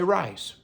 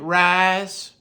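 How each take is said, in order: First: The vowel is short, without a Southern drawl. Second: The vowel is drawn out in a Southern drawl.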